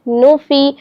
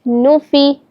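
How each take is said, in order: Both takes have the same delivery.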